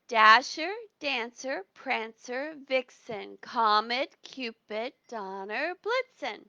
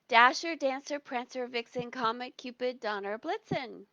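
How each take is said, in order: First: The names are said at a normal pace. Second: The names are said very quickly.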